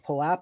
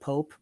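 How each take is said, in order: First: The word is not said like 'pope'. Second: The word is said like 'pope'. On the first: This is the official pronunciation. The speaker calls it wrong. "we actually are supposed to pronounce Poap" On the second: This is how the speaker always said it. The speaker calls it right. "I always called it Pope. I like that better"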